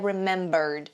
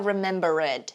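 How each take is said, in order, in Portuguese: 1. A palavra termina com um som de d leve. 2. A terminação -ed é falada com força. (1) "Termina com esse som de D mesmo, bem leve" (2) "a gente não vai falar remembered"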